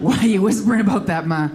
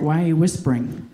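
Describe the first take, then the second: First: Exasperated. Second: Said in the usual way. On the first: Retold or imitated. Son baffled by his whispering mom, exasperated. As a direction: push back in disbelief.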